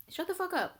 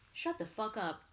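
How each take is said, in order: First: Higher, pushing up on the; exasperated. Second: Said in the usual way. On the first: Acted. Vlogger telling Nick off again, pitched up and exasperated. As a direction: throw it at him, fed up.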